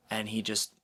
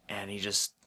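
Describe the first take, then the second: No difference in how they are said.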